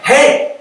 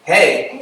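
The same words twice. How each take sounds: First: High, loud, bursting hey; excited greeting. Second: Restrained hey, little energy; subdued reply. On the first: New convert greeting coworkers next day, excited high hey. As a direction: hail them with big enthusiasm. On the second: Coworkers answering the excited convert, a subdued hey. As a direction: answer without matching the excitement. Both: Retold or imitated.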